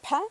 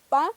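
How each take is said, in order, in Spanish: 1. La p tiene un soplo de aire fuerte. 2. La p es normal, sin soplo de aire. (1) "Si lo digo con la aspirada" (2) "Si es una P normal, digo pa"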